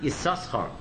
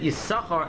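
First: The name is said with two S sounds. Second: The name is said with only one S sound. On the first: This is not the usual way the name is said. The speaker calls it wrong. "and not Yisachar" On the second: This is the usual way the name is said. The speaker calls it right. "we pronounce it Yisachar"

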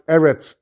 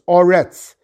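First: The first vowel is an e sound. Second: The first vowel is an o sound. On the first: The word is in the middle of a verse. "In the beginning of the pasuk, they're pronounced Eretz" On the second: The word is at the end of a verse. "if it's at the end of the pasuk, it's Oretz"

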